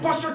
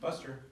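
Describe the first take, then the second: First: The name is shouted in an angry voice. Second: The name is called in a sweet, coaxing voice. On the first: The speaker is furious and threatening. The speaker calls it wrong. "I was screaming at him" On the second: The speaker hides his anger to lure the dog. The speaker calls it right. "I'd be gritting my teeth"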